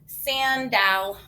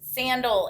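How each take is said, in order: First: The second vowel is a full, clear vowel. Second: The second vowel is reduced to a weak 'uh'. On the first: The speaker calls it wrong. "So I'm dividing it" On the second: The speaker calls it right. "That second A got schwalled. And it says uh"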